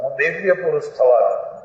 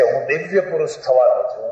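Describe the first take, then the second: First: Said in the usual way. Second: 1 quoting husband. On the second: Retold or imitated. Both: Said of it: "એ કહે છે".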